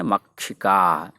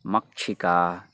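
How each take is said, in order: First: मक्षिका said slowly, each syllable distinct, louder; careful pronunciation. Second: Said in the usual way. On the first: Shown as a demonstration. Teacher models मक्षिका for the class, slow and clear. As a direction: spell out मक्षिका slowly and firmly. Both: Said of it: "मक्षिका नहीं है".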